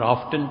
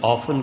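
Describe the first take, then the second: First: The t sound is pronounced in the word. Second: The t sound is silent in the word.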